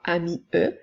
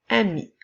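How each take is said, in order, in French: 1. Un son voyelle final supplémentaire est prononcé. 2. Le mot se termine sur le son 'i'. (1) "nous ne dirons pas" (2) "mais bien"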